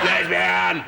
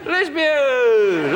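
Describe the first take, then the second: First: It is said in a harsh, jeering tone. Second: It is said in a warm, welcoming tone. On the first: It is meant as an insult. The speaker calls it wrong. "That's not very nice" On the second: It is a friendly greeting. The speaker calls it right. "That's nice. Come in!"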